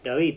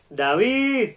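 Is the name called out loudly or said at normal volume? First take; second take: normal; loudly. First: The name is said at a normal, close-range volume. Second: The name is projected loudly with a big breath. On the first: The person being called is nearby. "estuviera cerca, diría David" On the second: The person being called is far away. "si estuviera más lejos, tomaría aire"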